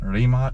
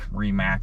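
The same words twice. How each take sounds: First: The name is said with a Croatian pronunciation. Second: The name is said with an American pronunciation. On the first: "is more the Croatian way" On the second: "is the American way to say it"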